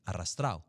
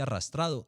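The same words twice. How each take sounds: First: "arrastrado" relaxed into "arrastrao"; everyday dropped D. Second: "arrastrado" with a clear D in -ado; fully pronounced D. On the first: Voice coach shows daily speech, "arrastrado" without its D. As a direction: swallow the D of "arrastrado", ending in -ao. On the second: Voice coach models recording diction, "arrastrado" with clear D. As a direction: articulate every sound of "arrastrado", D included. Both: Shown as a demonstration. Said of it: "en la continuidad uno dice".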